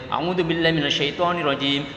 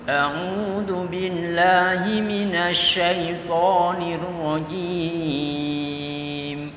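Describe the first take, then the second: First: It is recited quickly and hurriedly. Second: It is recited slowly and carefully. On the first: The speaker calls it wrong. "Tidak boleh ... seperti uh, tergopoh-gopoh" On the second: The speaker calls it right. "Nah, seperti itu"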